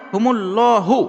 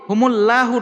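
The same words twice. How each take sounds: First: The L sound is heavy and full. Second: The L sound is light and thin. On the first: The speaker calls it right. "তাই লাম খারা জবর ল হবে" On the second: The speaker calls it wrong. "হুমুল্লাহু নয়"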